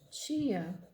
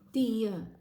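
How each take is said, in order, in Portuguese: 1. É dito do jeito regional local do falante. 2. É dito do jeito nordestino brasileiro. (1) "a gente também tem aqui na nossa região a pronúncia tia" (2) "Essa daqui é uma pronúncia típica do Nordeste brasileiro"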